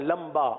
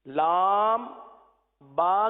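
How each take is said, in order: First: The m and b run together into one word. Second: The m and b are kept apart as two letters. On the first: The speaker calls it wrong. "अब आपने लंबा पढ़ दिया" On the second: The speaker calls it right. "लाम बा के बजाय क्या पढ़ दिया?"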